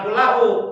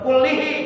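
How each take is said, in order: First: The word is said with an a vowel. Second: The word is said with an i vowel. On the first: The speaker calls it wrong. "jangan kullahu" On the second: The speaker calls it right. "kullihi jangan kullahu"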